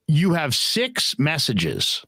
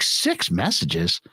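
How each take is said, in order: First: Slow, measured machine announcement of SIX MESSAGES; answering machine voice. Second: Low, slow disbelieving "Six messages"; incredulous. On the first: Voicemail machine reporting to its owner, slow recorded-prompt voice. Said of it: "and it's like". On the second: Teller reacting to his full machine, low incredulous echo. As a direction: repeat "Six messages" in dropped-pitch disbelief. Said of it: "And I'm like". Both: Retold or imitated.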